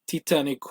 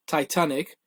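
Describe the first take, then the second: First: Titanic with an ee in the first syllable; Portuguese pronunciation. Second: Said in the usual way. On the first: Shown as a demonstration. Guest shows friends the literal translation, Portuguese Titanic. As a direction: say Titanic as Tee-tah-nee-ku, Portuguese-style. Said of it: "you'd say". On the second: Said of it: "in Portuguese dialect".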